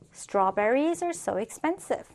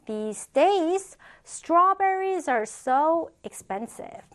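First: Said in the usual way. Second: Slow, drawn-out "strawberries are so expensive"; teacher's slow, higher-pitched demonstration; slow model reading. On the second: Shown as a demonstration. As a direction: stretch each word for learners, pitched up. Teacher models sentence slowly, then repeats.

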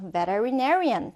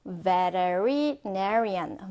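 First: Said in the usual way. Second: "veterinarian" drawn out very slowly, part by part; careful, slowed-down "veterinarian"; slow pronunciation. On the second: Shown as a demonstration. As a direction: stretch out "veterinarian" so learners can follow. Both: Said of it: "천천히 한번 따라해볼까요".

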